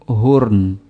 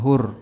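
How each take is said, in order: First: The word ends with a slight n sound. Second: The word ends on r with no n. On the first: The speaker calls it right. "Hurn ada sedikit n-nya" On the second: The speaker calls it wrong. "Yang hur"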